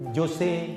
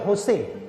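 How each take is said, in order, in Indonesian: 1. Nama "Jose" diawali dengan bunyi J. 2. Nama "Jose" diawali dengan bunyi H. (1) "J tetap J" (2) "salah kalau dipanggil"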